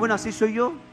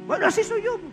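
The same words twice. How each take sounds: First: It is said in his normal voice. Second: It is said in a put-on voice.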